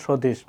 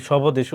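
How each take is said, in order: First: "স্বদেশ" said as shodesh, with no b sound; silent b. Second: "স্বদেশ" said as shobodesh, with the b voiced; sounded b. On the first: Teacher giving students the correct form, "স্বদেশ" with silent b. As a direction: drop the b in "স্বদেশ": sho-desh. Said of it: "উচ্চারণ করি কি?". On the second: Teacher asking if we say it so, "স্বদেশ" with sounded b. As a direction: put an extra "bo" into "স্বদেশ": sho-bo-desh. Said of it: "আমরা কি স্বদেশ উচ্চারণ করি". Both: Shown as a demonstration.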